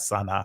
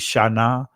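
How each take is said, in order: First: The word begins with a plain s sound. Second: The word begins with an sh sound. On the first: The speaker calls it wrong. "not Sana" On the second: The speaker calls it right. "It'd be Shana"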